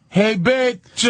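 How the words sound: It is said hesitantly and awkwardly.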